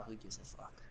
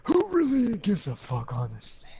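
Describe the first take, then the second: First: Low dismissive mutter under the breath; muttered aside. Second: High, loud scoffing exclamation; loud exasperated outburst. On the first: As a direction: throw it away under your breath. Muttered aside, then repeated louder. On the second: Repeats the aside louder and higher. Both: Real, not acted.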